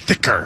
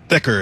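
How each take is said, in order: First: The word is said with strong, drawn-out emphasis. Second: The word is said plainly, without extra emphasis.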